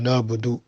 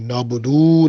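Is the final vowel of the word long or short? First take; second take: short; long. First: The final vowel is kept short. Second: The final vowel is drawn out long. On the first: The speaker calls it right. "बल्कि कहें" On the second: The speaker calls it wrong. "उसको खींचे ना, यानी ज़्यादा लंबा ना करें, नाबुदू ना कहें"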